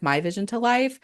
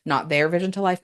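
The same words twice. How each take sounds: First: "my" stressed and pitched higher. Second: "their" stressed to contrast. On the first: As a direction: lean on "my" to claim it. Corrects to her own vision. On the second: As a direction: lean on "their" as the wrong owner. Contrasts whose vision it is. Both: Real, not acted.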